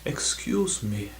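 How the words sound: It is said in an exaggerated posh accent. The speaker calls it wrong.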